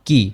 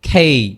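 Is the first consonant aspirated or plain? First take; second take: plain; aspirated. First: The k sound has no puff of air. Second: The k sound has a strong puff of air. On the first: The speaker calls it wrong. "But this is not কি" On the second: The speaker calls it right. "এটা হবে খি, খেই"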